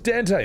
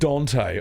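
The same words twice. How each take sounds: First: The first vowel sounds like an 'a'. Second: The first vowel sounds like an 'o'. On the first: The speaker calls it right. "There's an A in it, so I say that" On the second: The speaker calls it wrong. "then it should have been spelt with an O"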